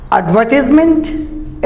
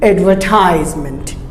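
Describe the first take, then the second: First: Advertisement as ad-VUH-tis-ment; short "tis" in advertisement, rising; British advertisement, silent r; British pronunciation. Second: Advertisement as ad-ver-TIES-ment; long "ties" in advertisement; American advertisement, falling; American pronunciation. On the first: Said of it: "British it is silent". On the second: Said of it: "Americans advertise". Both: Shown as a demonstration.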